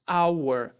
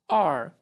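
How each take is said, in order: First: The word has its full, unreduced vowel sound. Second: The word is squeezed to sound like 'are'. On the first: "Esse é o som dessa palavra. Primeira possibilidade" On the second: "espremer esse som, e ele vai ter o som dentro da frase de are"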